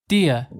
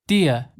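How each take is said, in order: Both takes have the same delivery.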